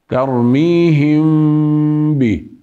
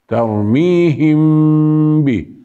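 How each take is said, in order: Both takes have the same delivery.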